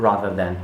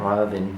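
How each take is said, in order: Both takes have the same delivery.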